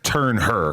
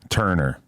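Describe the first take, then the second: First: The h sound is clearly pronounced. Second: The h sound is dropped smoothly. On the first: "Do you prefer when people pronounce the H" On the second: "more of like a smooth turner"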